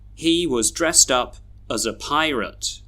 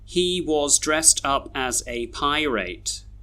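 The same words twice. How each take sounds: First: The small words are reduced to schwa. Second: The small words keep their full vowels. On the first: The speaker calls it right. "we should read these sentences like this" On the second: The speaker calls it wrong. "how I read them just then didn't sound very natural"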